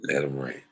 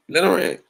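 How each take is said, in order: First: Said in the usual way. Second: High-pitched, louder urging; emphatic repeat. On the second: Real, not acted. Vlogger on fans who love a good rant, emphatic high-pitched repeat.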